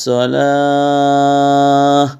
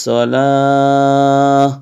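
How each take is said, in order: No difference in how they are said.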